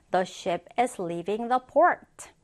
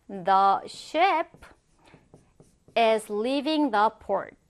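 First: Said in the usual way. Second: Slow model sentence with a long pause midway; slow dictation. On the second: Shown as a demonstration. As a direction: read it out piece by piece for learners. Word-by-word model sentence for learners.

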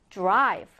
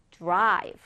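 No difference in how they are said.

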